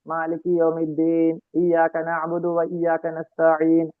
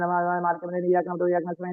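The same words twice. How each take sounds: First: It is recited slowly and calmly. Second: It is recited quickly and hurriedly.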